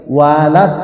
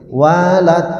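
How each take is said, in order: Both takes have the same delivery.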